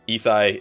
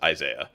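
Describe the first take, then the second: First: The name is said like Isai. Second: The name is said like Isaiah. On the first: This is the actual pronunciation of the tag. The speaker calls it right. "Isai is how you pronounce his actual tag" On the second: This is the common misreading everyone used. The speaker calls it wrong. "everyone just ended up calling him Isaiah because people just misread it as Isaiah"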